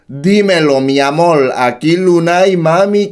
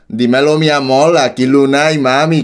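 First: It is read in his usual accent. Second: It is said in a Puerto Rican accent.

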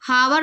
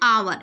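First: The word starts with an h sound. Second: The word starts with a vowel sound. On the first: The speaker calls it wrong. "ऐसे इसमें हावर नहीं बोल रहे" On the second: The speaker calls it right. "क्या बोल रहे हैं, आवर"

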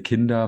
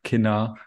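First: The d sound is clearly pronounced. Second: The d sound is dropped. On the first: This is the standard form. "They wouldn't say kinder" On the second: This is how some local speakers say it. "they also skip the D from time to time"

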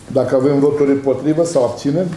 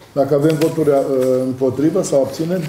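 No difference in how they are said.

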